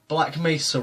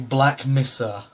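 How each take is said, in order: First: The first vowel of Mesa sounds like 'may'. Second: The first vowel of Mesa sounds like 'miss'. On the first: The speaker calls it right. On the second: The speaker calls it wrong.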